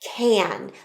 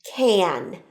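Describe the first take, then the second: The two takes are said the same way.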